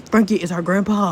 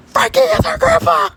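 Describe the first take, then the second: First: Said in the usual way. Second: Very high screaming excitement; piercingly high astonished shout; shrieked revelation. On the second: Acted. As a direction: shriek the news hysterically. Shocking discovery repeated, shrieked.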